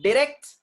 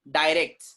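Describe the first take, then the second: First: Short i in Direct, high and rising; British pronunciation. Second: Long eye vowel in direct; American pronunciation. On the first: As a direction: Direct as "dih-RECT". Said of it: "direct is British sound". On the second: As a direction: direct as "die-RECT". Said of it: "direct is American sound". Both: Shown as a demonstration.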